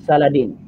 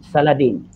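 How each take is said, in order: No difference in how they are said.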